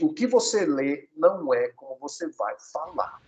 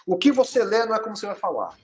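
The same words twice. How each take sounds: First: "o que você lê não é como você vai falar" slowly, word by word; slow emphatic repeat. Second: Said in the usual way. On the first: Shown as a demonstration. Teacher repeats the first tip, slow and emphatic. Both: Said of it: "deixa eu repetir".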